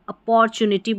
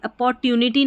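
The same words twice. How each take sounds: First: The middle syllable has a ch sound. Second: The middle syllable has a plain t sound. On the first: The speaker calls it right. "अपॉर्चुनिटी बोलते हैं" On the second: The speaker calls it wrong. "अपॉर्चुनिटी नहीं बोलते हम"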